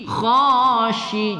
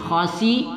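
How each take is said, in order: First: The middle consonant is a thick sh sound. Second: The middle consonant is a plain s sound. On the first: The speaker calls it right. "ingat agak tebal sedikit pada sifat shim tafashi" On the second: The speaker calls it wrong. "jangan khasi salah ya"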